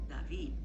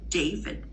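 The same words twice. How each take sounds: First: David with a soft interdental D; Spanish David. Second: David with a crisp alveolar D; English David. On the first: Teacher contrasting it with English David. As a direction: say David with the tongue touching the teeth. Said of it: "now say David". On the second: Teacher showing English David. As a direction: tap the ridge behind the teeth on David. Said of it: "when I say David in English". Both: Shown as a demonstration.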